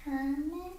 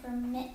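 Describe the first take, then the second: First: "Permit" as the noun, PER-mit; stress on first syllable. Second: "permit" as the verb, per-MIT; stress on second syllable. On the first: Student echoing teacher's example, "Permit" stressed on PER. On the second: Student echoing teacher's example, "permit" stressed on MIT. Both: Shown as a demonstration.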